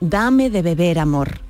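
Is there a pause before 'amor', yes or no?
no. There is no pause before amor.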